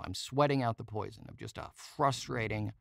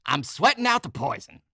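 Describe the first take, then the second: First: Said in the usual way. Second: "I'm sweating out the poison" yelled much higher and louder; punk rocker yell. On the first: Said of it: "I guess that's what I'm doing now". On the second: Retold or imitated. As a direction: bellow it like a wild punk rocker. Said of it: "He always goes".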